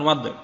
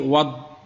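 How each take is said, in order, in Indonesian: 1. Konsonan akhir berakhir dengan memantul. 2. Konsonan akhir berakhir tanpa memantul. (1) "bukan wad" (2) "bukan kolkolah do tapi wad, tidak memantul"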